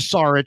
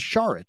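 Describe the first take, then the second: First: The name begins with a plain s sound. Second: The name begins with an sh sound. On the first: The speaker calls it wrong. "not a Saric" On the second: The speaker calls it right. "S H as the pronunciation"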